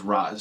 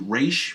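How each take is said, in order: First: The name ends with a 'z' sound. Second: The name ends with an 'sh' sound. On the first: This is the speaker's personal habit. "I pronounce it as Raz" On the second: This is the official pronunciation. "the pronunciation for Ra's is actually Raish"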